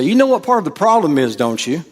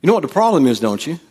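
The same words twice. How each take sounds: First: Raised, fast teasing question; knowing jab. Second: Raised teasing question; knowing jab. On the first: Preacher showing what to say in an argument. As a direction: toss it out like a jab. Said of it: "I want you to say". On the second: Preacher repeating the argument line. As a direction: lob it like a jab. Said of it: "if somebody said that to you". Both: Shown as a demonstration.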